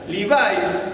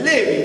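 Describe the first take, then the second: First: The name is pronounced the English way. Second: The name is pronounced the Hebrew way. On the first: The speaker calls it wrong. "se le pronuncia con pronunciación fonética inglesa" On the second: The speaker calls it right. "es Levi, porque es de, el apellido Levi"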